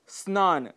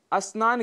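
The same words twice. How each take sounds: First: स्नान starting straight on the s-n cluster; correct pronunciation. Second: अस्नान with an extra short a in front; mispronunciation with added a. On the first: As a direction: say स्नान slowly, no vowel before स. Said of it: "शुद्ध शब्द है". (स्नान का शुद्ध उच्चारण, बिना अ के) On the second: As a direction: put an "a" before the cluster: अस्नान. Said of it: "अ कई बार आगे लगा देते हैं". (अस्नान, आगे अ लगाकर अशुद्ध उच्चारण) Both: Shown as a demonstration.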